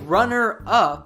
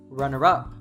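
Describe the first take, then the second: First: The two words are said separately. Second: The two words are linked together smoothly. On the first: "instead of saying runner up" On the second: "Lord Farquaad says runner up"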